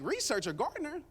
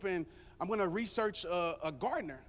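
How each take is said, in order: First: Pitched-up scoff at the idea; mock offended, as if the idea is absurd; incredulous echo. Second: Said in the usual way. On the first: Husband scoffing at his own plan to hire a gardener, incredulous.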